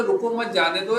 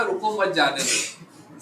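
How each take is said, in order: First: रुको set apart as a command, then मत जाने दो run together; pause after रुको. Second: रुको मत run together, then जाने दो set apart; pause after मत. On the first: Teacher showing students how grouping changes meaning, pause after रुको. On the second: Teacher showing students how grouping changes meaning, pause after मत. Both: Shown as a demonstration. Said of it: "खास जो words है ना".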